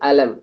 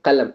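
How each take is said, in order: First: The word begins with a glottal stop. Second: The word begins with a deep back Q sound. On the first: This is the Egyptian form. "ஆனா ப்ரொனன்சியேஷன் மட்டும் வேறுபடும். Egyptian" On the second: This is the form used across the dialects. "எல்லா ஸ்லாங்லயுமே கலம்"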